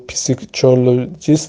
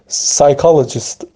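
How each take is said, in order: First: The word begins with a P sound. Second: The word begins with an S sound. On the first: The speaker calls it wrong. "من نمیگم پسیکولوژیست نمیگم" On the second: The speaker calls it right.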